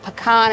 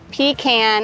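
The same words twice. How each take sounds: First: It does not end like the word 'can'. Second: It sounds like 'pee' plus 'can'. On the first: It names the nut you eat. The speaker calls it right. "A pecan is something that you eat" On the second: It names a can you urinate in. The speaker calls it wrong. "A pecan is a can that you pee in"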